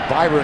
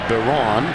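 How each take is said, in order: First: The name sounds like Byron. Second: The name sounds like Baron. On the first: The speaker calls it wrong. "You might think of it as Byron" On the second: The speaker calls it right. "He pronounces it Baron"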